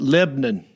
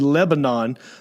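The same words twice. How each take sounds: First: The name is said the local Southern way. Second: The name is said the standard way.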